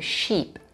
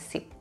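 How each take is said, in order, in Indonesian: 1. Kata itu diawali dengan bunyi sh. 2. Kata itu diawali dengan bunyi s biasa. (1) "Sheep ada S H sounds di situ"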